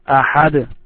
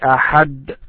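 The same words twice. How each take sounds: First: The final d is released with a bouncing echo. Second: The final d stops flat with no echo. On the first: The speaker calls it right. "You should say it this way" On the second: The speaker calls it wrong. "you don't say it this way"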